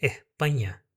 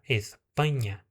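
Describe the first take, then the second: First: "Espanha" with the S breathed out like an H; aspirated S. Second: "Espanha" with a clear full S. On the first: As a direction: say "Espanha" as "ehpanha". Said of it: "você vai escutar o er". ("Espanha" com S aspirado) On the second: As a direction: say "Espanha" with a crisp S. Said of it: "desse jeito". ("Espanha" com S completo) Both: Shown as a demonstration.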